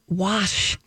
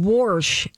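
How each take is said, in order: First: The word has no R sound. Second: The word has an added R sound. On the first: The speaker calls it right. "It's wash" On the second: The speaker calls it wrong. "Stop saying warsh"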